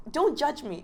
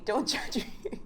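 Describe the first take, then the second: First: High, put-on squeaky voice; a playful high-pitched don't-judge-me; mock plea. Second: Breathy, laughing half-whisper. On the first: Joking about eating baby food. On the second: Pretend. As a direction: giggle through the plea. Repeats the plea, laughing.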